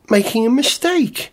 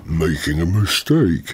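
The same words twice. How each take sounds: First: It is said in a high-pitched voice. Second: It is said in a lower-pitched voice.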